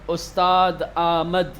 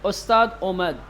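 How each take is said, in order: First: The second word begins with a long 'aa' vowel. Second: The second word begins with an 'o' vowel. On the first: The speaker calls it wrong. "ये हमारा लहजा है।" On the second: The speaker calls it right. "फारसी वाले"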